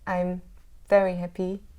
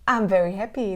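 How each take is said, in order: First: It sounds insincere and not really happy. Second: It sounds sincere and genuinely happy. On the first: The speaker is not really happy. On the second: The speaker really is happy.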